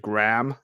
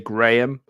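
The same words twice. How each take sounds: First: It is said with an American accent. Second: It is said with the speaker's non-American accent.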